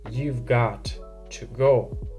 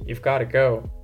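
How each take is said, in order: First: The words 'got' and 'to' are separated clearly. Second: The words 'got to' run together as 'gotta'. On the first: The speaker is serious about it. "when you enunciate the words and you put a pause between them, it means that you're talking serious" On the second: It is a casual reminder. "Dude, you're late"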